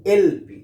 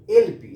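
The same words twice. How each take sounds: First: एलपी spelled as el-pee, first letter stressed; एलपी with a stressed el sound; letters said apart. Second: एलपी spelled out slowly, letter by letter; एलपी pronounced letter by letter; letters said apart. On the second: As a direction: say एलपी as separate letters, el-pee. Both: Shown as a demonstration. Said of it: "जैसे हम pronunciation इसका करते हैं".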